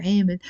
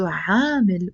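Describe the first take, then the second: First: عامل with a long eh, "EH-mil"; first vowel of عامل raised to eh; eh pronunciation. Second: عامل with a long open aa, "AA-mil"; open aa pronunciation. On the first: Teacher defining the word both ways, عامل with eh. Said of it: "I like to pronounce it". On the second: Teacher defining the word both ways, عامل with aa. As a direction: open the first vowel of عامل wide to aa. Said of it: "we can also pronounce it". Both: Shown as a demonstration.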